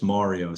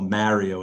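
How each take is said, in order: First: Mario with first vowel as in "car"; corrected pronunciation. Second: Mario with first vowel as in "marry"; New York pronunciation. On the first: Wife quoted correcting his accent, Mario with AH as in "car". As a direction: say Mario with an open AH, MAH-rio. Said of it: "she says". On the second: Wife quoted correcting his accent, New York Mario with A as in "marry". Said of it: "That's only New Yorkers call Mario". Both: Retold or imitated.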